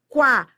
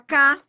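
First: A w sound follows the k. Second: No w sound follows the k. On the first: The speaker calls it right. "Esse U é pronunciado" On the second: The speaker calls it wrong. "Você não fala cá"

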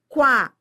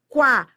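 First: A w sound follows the k. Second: A w sound follows the k.

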